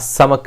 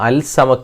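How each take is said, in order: First: The l blends into the s sound. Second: The l is clearly pronounced before s. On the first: The speaker calls it right. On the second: The speaker calls it wrong.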